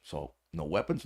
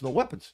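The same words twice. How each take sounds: First: Said in the usual way. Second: No weapons said higher and louder; emphatic. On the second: Retold or imitated. Telling the friend there were no weapons, emphatic rise. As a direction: hammer home no weapons.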